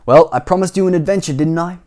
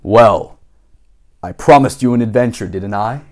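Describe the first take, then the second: First: Higher, brighter take that misses the character; wrong voice. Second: Lower, steadier grown-up voice; Mister Daydream's voice. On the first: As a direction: slip out of the character voice. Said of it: "Sorry, that wasn't his voice". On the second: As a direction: settle back into the lower character voice. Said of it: "We gotta get back into his voice". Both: Shown as a demonstration.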